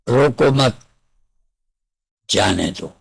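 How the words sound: The pause comes after mat, before jaane do. "एक अर्थ है रोको मत, जाने दो"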